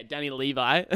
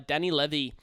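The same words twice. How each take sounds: First: "Levi" said LEE-vye; long "ee" then "eye" in "Levi"; corrected surname. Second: "Levy" said to rhyme with heavy; short first vowel in "Levy", ending in "ee"; mispronounced surname. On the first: Host accepting the co-host's correction, "Levi" said LEE-vye. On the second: Host naming the hooker, "Levy" said like "levee". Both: Real, not acted.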